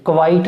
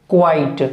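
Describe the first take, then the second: First: क्वाइट as "kuh-vait"; extra schwa between k and v in क्वाइट; wrong pronunciation. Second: क्वाइट as one-beat "kwait"; correct pronunciation. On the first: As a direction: demonstrate the mistaken two-beat "kə-vait" for क्वाइट. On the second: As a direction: glide k straight into w in क्वाइट. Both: Shown as a demonstration. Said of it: "क्वाइट नहीं बोलना".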